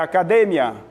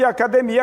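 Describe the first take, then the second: First: The stress is on the 'de' syllable. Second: The stress is not on the 'de' syllable. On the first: This is the Spanish pronunciation. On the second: This is the Portuguese pronunciation.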